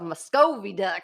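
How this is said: It is said with a French Canadian accent. The speaker calls it wrong. "saying in like a Canadian accent"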